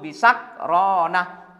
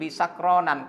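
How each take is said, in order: First: The word ends without a nasal n. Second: The word ends with an added n. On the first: The speaker calls it right. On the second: The speaker calls it wrong.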